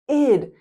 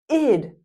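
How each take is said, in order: The two takes are said the same way.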